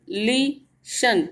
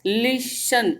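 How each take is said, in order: First: listen slowly as ली, pause, शन; split into syllables. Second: Said in the usual way. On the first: Shown as a demonstration. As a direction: hold the first syllable of listen, then drop onto शन. (Listen को तोड़कर, ली पर ठहरकर बोलें) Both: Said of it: "ली पे थोड़ा हमने ज़्यादा देर तक ठहराव किया है".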